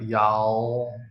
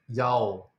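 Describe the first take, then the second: First: It ends with a dark L, tongue moving. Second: It ends with an O-like vowel, no L. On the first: The speaker calls it right. "your tongue's moving like y'all" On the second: The speaker calls it wrong. "Normally Taiwanese person would say like yao"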